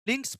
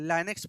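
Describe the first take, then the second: First: The first vowel sounds like 'ih'. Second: The first vowel sounds like 'eye'. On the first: The speaker calls it right. "इसको पढ़ते हैं हम लोग लिंक्स पढ़ते हैं" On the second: The speaker calls it wrong. "But इसको लाइनेक्स नहीं बोला जाता"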